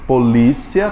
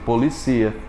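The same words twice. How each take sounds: First: Polícia stressed on LÍ, as po-LÍ-cia; "polícia" with the stress before the last syllable; stress on second syllable. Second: Policia stressed on CI, as po-li-CI-a; "Policia" said as the verb, po-li-CI-a. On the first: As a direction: hit the LÍ in "polícia". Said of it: "a posição da sílaba tônica". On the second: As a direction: move the beat in "Policia" to the ci. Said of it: "você deixou o oxítono". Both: Shown as a demonstration.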